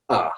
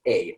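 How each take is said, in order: First: Demonstrating "a" as a schwa. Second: Demonstrating "a" as a long "ay"; full-vowel "a". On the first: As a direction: say "a" as a plain "uh", not "ay". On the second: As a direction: say "a" like the letter name, "ay". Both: Shown as a demonstration. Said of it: "Normally, we don't say".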